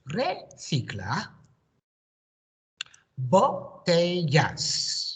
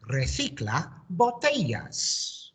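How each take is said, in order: First: Recicla with a rise, a pause, then botellas drawn out slowly; slow, word by word. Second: Recicla botellas in one breath, slowed, stress on botellas, bo-TE-yas; joined into one phrase. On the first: Teacher modelling a new phrase for pupils, slow and split. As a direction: say each word apart, slowly, for copying. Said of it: "My turn, your turn". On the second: Teacher blending the phrase for the class to echo, smooth and slow. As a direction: join both words into one smooth phrase. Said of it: "put that together". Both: Shown as a demonstration.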